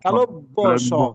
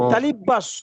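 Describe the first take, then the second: First: It is said as two words, 'talobbo sho'. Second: It is run together as 'talibasso'. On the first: The speaker calls it right. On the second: The speaker calls it wrong. "আমরা বলি তালিবাস্য, তালিবাস্য বলা যাবে না"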